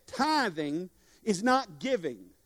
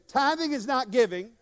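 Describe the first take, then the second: First: Slow, weighty "not"; stress on not. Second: Said in the usual way. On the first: Shown as a demonstration. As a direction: lay it down slowly, leaning on "not". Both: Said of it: "Say that with me".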